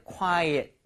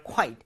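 First: "quiet" in two syllables, "kwai-et". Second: "quiet" said as one syllable, "kwite"; one-syllable quite. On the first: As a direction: open a second vowel in "quiet". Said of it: "조용한이라고 할 때는". ("quiet"를 '콰이-엇' 두 음절로 발음) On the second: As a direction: run "quiet" together as "kwite". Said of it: "Quiet은 그냥 정말 quiet". ("quiet"를 '콰이트' 한 음절로 발음) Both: Shown as a demonstration.

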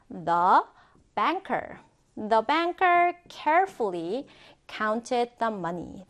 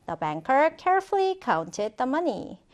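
First: Slow, careful dictation in chunks; phrase by phrase. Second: Said in the usual way. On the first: Shown as a demonstration. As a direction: model it slowly, pausing before "counted". Teacher models sentence in chunks.

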